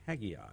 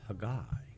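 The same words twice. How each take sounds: First: The name is said the New York way. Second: The name is said the Israeli way. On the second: "in Israel, it's pronounced Haggai"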